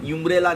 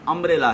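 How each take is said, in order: First: The word begins with a 'yoo' sound. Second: The word begins with a plain 'uh' vowel. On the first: The speaker calls it wrong. "यूम्ब्रेला नहीं है" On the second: The speaker calls it right. "अम्ब्रेला है"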